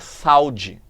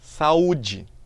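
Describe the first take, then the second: First: The two vowels glide together in one syllable. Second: The two vowels fall in separate syllables. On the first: The speaker calls it wrong. "a gente não fala saúde, senão tem outra palavra" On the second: The speaker calls it right. "Mas saúde. Eu tenho duas sílabas"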